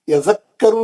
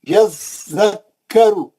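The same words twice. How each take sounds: First: The doubled consonant is rushed over quickly. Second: The doubled consonant is held and clearly separated. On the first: The speaker calls it wrong. "यज़क्करू नहीं है" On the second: The speaker calls it right. "ऐसा तोड़ तोड़ के पढ़ना"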